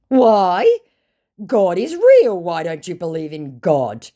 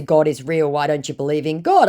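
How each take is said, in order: First: High, loud outraged put-on voice; hammed-up scandalised believer; mock horrified scammer. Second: Said in the usual way. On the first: Scammer shocked she doesn't believe, in a high loud mock voice. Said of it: "absolutely astounded and horrified".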